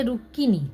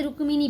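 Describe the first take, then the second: First: "रुक्किनी" as ruk-ki-nee, silent m; Bengali doubled k. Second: "रुक्मिणी" with m sounded after k; Hindi reading. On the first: Teacher shows learners Bengali reading, "रुक्किनी" with doubled k. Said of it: "बंगला में पढ़ेंगे रुक्किनी". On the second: Teacher recalls the Hindi reading, "रुक्मिणी" with audible m. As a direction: say "रुक्मिणी" as ruk-mi-nee. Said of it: "Hindi में इसे रुक्मिणी पढ़ेंगे". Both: Shown as a demonstration.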